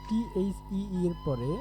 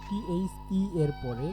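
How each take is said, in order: The two takes are said the same way.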